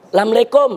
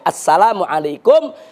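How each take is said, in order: First: It is said in a colloquial Betawi style. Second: It is said in the full standard form. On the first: The speaker calls it wrong. "Apalagi masyarakat Betawi nih. Saking membudayanya" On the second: The speaker calls it right. "Yang betul itu"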